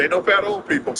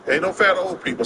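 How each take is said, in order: First: Higher-pitched, lightly voiced doctor; quoting his doctor. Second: Said in the usual way. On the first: Doctor warning patient about weight, lightly imitated. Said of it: "She said".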